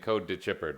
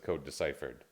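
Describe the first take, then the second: First: The middle sounds like 'to chip', with a ch. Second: The middle sounds like 'decipher', with an s. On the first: The speaker calls it wrong. "you are saying code to Chippered" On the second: The speaker calls it right. "when it says code deciphered"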